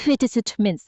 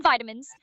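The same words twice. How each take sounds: First: Vitamins with a short first i; whispered-sounding British attempt. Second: Vitamins with a long i; American pronunciation. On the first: Assistant retrying the word, whispery short-i vitamins. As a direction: say Vitamins as VIT-uh-mins, oddly whispered. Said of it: "like, whispered there". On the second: Assistant trying the word, long-i vitamins. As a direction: say vitamins as VY-tuh-mins. First attempt at requested word. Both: Shown as a demonstration.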